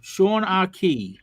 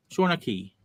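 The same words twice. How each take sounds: First: "Sean Arkey" sounded out slowly and higher; "Sean Arkey" slow and deliberate, each part drawn out; careful name pronunciation. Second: Said in the usual way. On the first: Shown as a demonstration. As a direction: stretch out "Sean Arkey" at half speed, carefully. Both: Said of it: "given a pronunciation guide".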